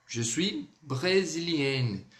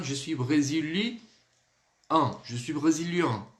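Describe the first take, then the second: First: Slow "brésilienne" with the final N fully sounded; teacher modelling "brésilienne", ending "-enne"; feminine N ending. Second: "brésilien" ending in a nasal vowel, no sounded N; masculine nasal ending. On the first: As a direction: stretch "brésilienne" and close on a clear N. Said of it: "N, porque é feminino". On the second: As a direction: let "brésilien" end open in the nose, N silent. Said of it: "E o masculino". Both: Shown as a demonstration.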